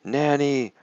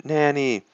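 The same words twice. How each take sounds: First: High, drawn-out cry for Nanny; high storytelling scream, held then falling; mock scream. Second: High, held echo of the scream; child's mock scream for Nanny; mimicked scream. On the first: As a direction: scream it in pitch, not in volume. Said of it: "And he screams". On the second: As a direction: copy the tutor's scream, high but contained. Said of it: "Then I scream". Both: A narrator's reading.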